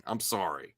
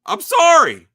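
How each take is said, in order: First: Low soft I'm sorry; quiet. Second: Loud high I'm sorry; shouted apology. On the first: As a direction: say it under the breath. Quiet first take. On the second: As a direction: blurt it out at full volume. Sudden shouted outburst. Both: Acted.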